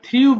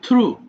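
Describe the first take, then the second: First: The vowel glides like 'yoo' after the r. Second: The vowel is a plain 'oo' after the r. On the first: The speaker calls it wrong. "এটা যদিও আমরা থ্রিউ বলি" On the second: The speaker calls it right. "শুদ্ধ উচ্চারণটা হচ্ছে থ্রু"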